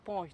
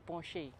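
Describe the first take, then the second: First: The name is pronounced the English way. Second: The name is pronounced the German way. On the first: The speaker calls it wrong. "the Germans don't say Porsche" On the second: The speaker calls it right. "they say Porsche"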